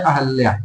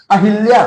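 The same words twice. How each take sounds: First: अहल्या, ह followed straight by ल; correct spelling said aloud. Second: अहिल्या with the extra short i sound after ह; wrong spelling said aloud. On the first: Teacher correcting students on the right spelling, spoken plainly. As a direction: say अहल्या with no i sound after ह, the correct form. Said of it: "ये होता है अहल्या". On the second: Teacher showing students the misspelt word, spoken plainly. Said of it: "नहीं, ये होता है अहल्या". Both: Shown as a demonstration.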